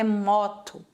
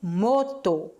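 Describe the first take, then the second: First: The o sounds like Brazilian Portuguese. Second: The o sounds like Spanish. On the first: The speaker calls it wrong. "igual a gente fala, não é moto" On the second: The speaker calls it right. "e sim moto"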